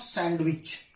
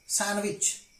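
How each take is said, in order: First: The d sound is pronounced. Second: The d sound is silent. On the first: The speaker calls it wrong. "not sandwich" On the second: The speaker calls it right. "tricky examples of the silent letter D"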